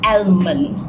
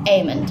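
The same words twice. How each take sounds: First: The L sound is pronounced in the word. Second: The L sound is silent in the word. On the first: The speaker calls it wrong. "A lot of people pronounce it as almond. Oh my god, you are wrong" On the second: The speaker calls it right. "The right pronunciation is almond. We put the L silent"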